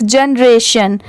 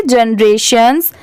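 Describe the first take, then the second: First: "जनरेशन" ending on a plain N; without final S. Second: "जनरेशंस" ending in an audible S after N; with final S. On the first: Teacher showing the singular reading, "जनरेशन" stopping on N. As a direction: say "जनरेशन" with no S at the end. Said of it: "अगर इसमें भी ये एस नहीं होता". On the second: Teacher showing the plural reading, "जनरेशंस" with a closing S. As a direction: sound the S at the end of "जनरेशंस". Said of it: "एस दिया हुआ है तो इसे क्या पढ़ेंगे?". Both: Shown as a demonstration.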